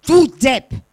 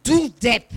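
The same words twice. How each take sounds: First: Higher, much louder angry yell; annoyed boy yelling; angry shout. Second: The insult thrown back, less loud; echo. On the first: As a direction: hurl the insult at the mountains. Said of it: "Verärgert schreit der Junge". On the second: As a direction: echo it back from far away. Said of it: "Und erhält zur Antwort". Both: A narrator's reading.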